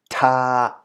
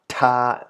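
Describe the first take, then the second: Both takes have the same delivery.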